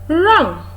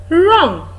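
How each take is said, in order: The two takes are said the same way.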